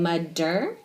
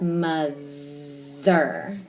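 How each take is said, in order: First: The middle consonant is a d sound. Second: The middle consonant is a th sound. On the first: The speaker calls it wrong. "Now you're saying mudder" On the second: The speaker calls it right. "When we say it, it's mother"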